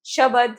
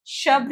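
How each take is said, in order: First: शब्द split as 'sha-bad'; mispronounced word. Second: शब्द as 'shabd', bd joined; correct pronunciation. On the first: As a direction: add a vowel between b and d in शब्द. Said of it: "नहीं होता". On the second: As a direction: close शब्द on a bd cluster. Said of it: "लिखते हैं". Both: Shown as a demonstration.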